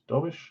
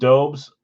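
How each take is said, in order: First: The name ends with an sh sound. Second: The name ends with a plain s sound. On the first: The speaker calls it right. "Say it like Dobish or something" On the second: The speaker calls it wrong. "I've been saying Dobes"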